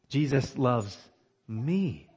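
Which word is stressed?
me. The word me is stressed. It is amazing who it is that is loved. "It makes sense to me that Jesus would love John the"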